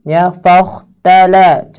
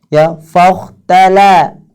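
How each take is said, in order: The two takes are said the same way.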